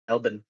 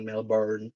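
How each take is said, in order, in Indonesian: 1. Diucapkan seperti cara orang Australia mengucapkannya. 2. Diucapkan dengan cara non-Australia. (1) "kalau orang Australia ngomongnya Melbourne" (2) "bukan Melbourne"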